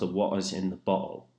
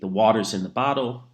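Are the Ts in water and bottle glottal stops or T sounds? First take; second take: glottal stops; T sounds. First: Glottal stops replace the T sounds in water and bottle. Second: The T sounds in water and bottle are pronounced.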